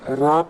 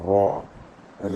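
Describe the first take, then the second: First: The sound is thin with an unrounded mouth. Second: The sound is heavy with a rounded mouth. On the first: The speaker calls it wrong. "रा पढ़ेंगे तो गलत हो जाएगा" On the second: The speaker calls it right. "मोटा पढ़ना है"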